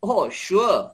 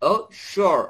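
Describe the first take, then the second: First: It is said in a British accent. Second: It is said in an American accent. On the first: "আর ব্রিটিশটা" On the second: "আমেরিকানটা ও শিওর কে বলবে"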